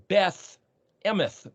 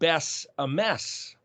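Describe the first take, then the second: First: Each word ends with a th sound. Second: Each word ends with an s sound. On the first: "sometimes it's a T H" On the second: "pronounce the final Tav plural suffix as an S"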